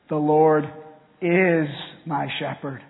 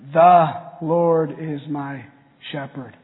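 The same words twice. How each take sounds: First: The word "is" is stressed. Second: The word "The" is stressed.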